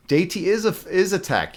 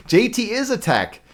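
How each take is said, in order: First: Said in the usual way. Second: Said through a laugh, high and slowed. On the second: Real, not acted. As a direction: giggle out the words "J T is a tech".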